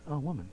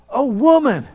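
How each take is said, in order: First: It is said flatly, without enthusiasm. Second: It is shouted loudly with excitement. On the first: The praise is casual and lukewarm. The speaker calls it wrong. "I'm sure He didn't just stand there and just say" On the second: The praise is enthusiastic and heartfelt. The speaker calls it right. "I could just hear Him just shouting it out"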